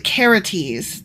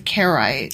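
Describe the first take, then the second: First: The name sounds like 'Karates'. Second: The name sounds like 'Karaites'. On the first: The speaker calls it right. "It's the Karates" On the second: The speaker calls it wrong. "I'm pronouncing that wrong"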